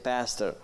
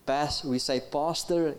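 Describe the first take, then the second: First: It is said with the audience's local pronunciation. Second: It is said with a South African pronunciation. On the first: "you say pastor" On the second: "We say pastor"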